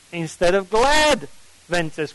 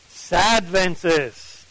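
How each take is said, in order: First: "glad Adventist" lifted on "glad"; stress on glad. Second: "Sad Adventist" slow, leaning on "Sad"; stress on sad. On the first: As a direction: brighten a little on "glad". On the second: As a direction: drag out "Sad" a touch, mildly mournful. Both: Shown as a demonstration. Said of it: "what kind of Adventist?".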